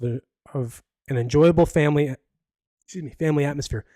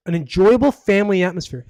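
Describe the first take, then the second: First: Said in the usual way. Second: Mocking "enjoyable", stretched and pointed; sarcastic stress on enjoyable. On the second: Shown as a demonstration. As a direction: scoff at the phrase, leaning on "enjoyable". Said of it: "That's kinda hilarious".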